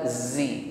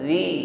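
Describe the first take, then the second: First: The consonant is said with a hissing sound. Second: The consonant is said without any hissing. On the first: The speaker calls it wrong. "bukan zi" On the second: The speaker calls it right. "zi tidak ada bunyi desis"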